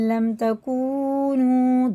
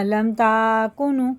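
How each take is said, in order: First: Both long vowels are stretched to equal length. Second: The long vowels are not stretched equally. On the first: The speaker calls it right. "दोनों को बराबर खींचेंगे" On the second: The speaker calls it wrong. "ऐसे नहीं पढ़ना, ये गलत हो जाएगा"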